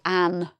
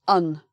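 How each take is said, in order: First: The word has a full, strong vowel. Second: The word has a short, weak vowel. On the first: The speaker calls it wrong. "We don't say an" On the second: The speaker calls it right. "this is un"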